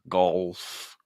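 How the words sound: The word sounds closed off and swallowed. The speaker calls it wrong. "it feels like we're almost swallowing it"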